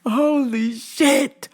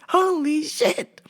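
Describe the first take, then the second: First: Slow, high disbelief; stunned. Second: Higher, whimpering disbelief; mock crying. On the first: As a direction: let it out slowly in shock. Stunned exclamation. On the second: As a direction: say it like almost sobbing. Repeat with crying sound. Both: Real, not acted.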